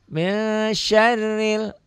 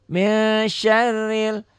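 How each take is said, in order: No difference in how they are said.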